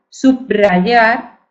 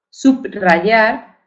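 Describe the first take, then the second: The two takes are said the same way.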